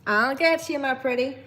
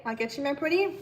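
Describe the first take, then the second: First: Put-on Tennessee accent. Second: Said in the usual way. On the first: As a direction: put on your best Tennessee twang. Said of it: "Use your best Tennessee accent". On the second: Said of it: "Is that what you guys say?".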